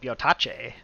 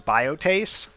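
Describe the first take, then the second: First: The word is pronounced with Italian-style sounds. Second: The word is pronounced with English-style sounds. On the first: This is how it would sound if the word were Italian. "if this was Italian, it'd be like" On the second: This is probably the intended pronunciation. "I think you're supposed to pronounce this"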